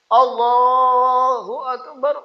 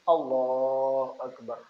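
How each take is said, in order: First: It is said loudly, carrying far. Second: It is said quietly, just audible.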